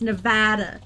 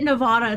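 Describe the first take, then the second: First: The middle vowel is a hard A, like cat. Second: The middle vowel is a soft, open ah sound. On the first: The speaker calls it right. "Nevada with a hard A" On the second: The speaker calls it wrong. "they'll probably slap you"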